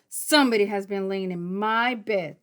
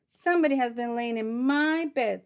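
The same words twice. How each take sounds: First: It is said in a great big voice. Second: It is said in a middle-sized voice.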